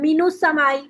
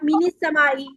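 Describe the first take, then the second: First: The n is followed by a u vowel. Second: The n is followed by an i vowel. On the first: "कभी भी इस पे ऐसे नहीं पढ़ेंगे आप" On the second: "कभी भी इस पे ऐसे नहीं पढ़ेंगे आप"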